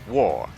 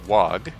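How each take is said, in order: First: The word sounds like the word war. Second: The word ends with a hard g sound. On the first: The speaker calls it right. "It is war, as in we's going to war" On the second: The speaker calls it wrong. "most people pronounce it "wog,""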